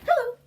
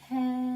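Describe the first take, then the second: First: It is said very quickly. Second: It is said very slowly.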